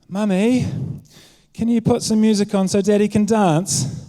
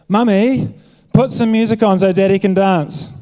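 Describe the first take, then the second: First: It is said as a gentle request. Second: It is said as a forceful demand.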